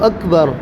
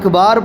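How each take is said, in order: First: Both vowels in the word are short. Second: Only the second vowel is lengthened. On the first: The speaker calls it right. "आप कहें मेरे साथ अल्लाहु अकबर" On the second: The speaker calls it wrong. "अकबर को आकबार या अकबार पढ़ा, तो ऐसी सूरत में नमाज नहीं होगी"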